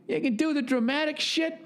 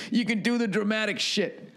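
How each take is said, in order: First: "You can do the dramatic shit" in a much higher put-on dad voice; dad impression. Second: A hint of the dad voice, a bit higher; lightly voiced dad. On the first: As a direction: hand the line over fully in dad's voice. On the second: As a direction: quote dad half in your own voice. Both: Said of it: "That's what he said".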